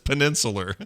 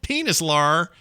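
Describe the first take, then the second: First: It is said as peninsular. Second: It is said as penis-lar. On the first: The speaker calls it right. "it's peninsular. It's not penis at all" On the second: The speaker calls it wrong. "I was trying to do it phonetically. It's not it's wrong"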